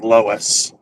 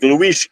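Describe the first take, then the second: First: The name is said the English way. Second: The name is said the Portuguese way. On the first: "Sounds like Lois" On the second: "The Portuguese way is like"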